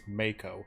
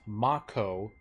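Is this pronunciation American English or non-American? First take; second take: American; non-American. First: The word is said with an American twang. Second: The word is said the non-American way. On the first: "the English U S A pronunciation is Mako" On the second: "Most languages pronounce it Mako"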